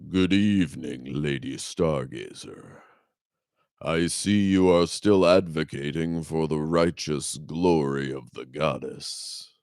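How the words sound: It is read in a deep, sonorous voice.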